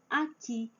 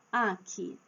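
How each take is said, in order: First: "aqui" as a-QUI; stress on last syllable. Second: "Aqui" as A-qui, ending weak; wrong stress on first syllable. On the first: Teacher lists examples, "aqui" stressed on final QUI. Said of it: "a última sílaba é a forte". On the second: Teacher shows what nobody says, "Aqui" stressed on A. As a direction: hit the A of "Aqui". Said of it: "ninguém fala assim". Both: Shown as a demonstration.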